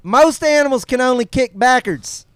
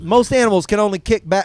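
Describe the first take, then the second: First: It is read in a put-on expert's voice. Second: It is read in his normal voice.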